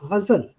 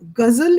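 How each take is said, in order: First: It begins with a throaty sound like French R. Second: It begins with a plain hard G sound. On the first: The speaker calls it right. "it's ghazal. So when you use the correct pronunci- pronunciation, then you go closer to the French R" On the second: The speaker calls it wrong. "Ghazal is not right"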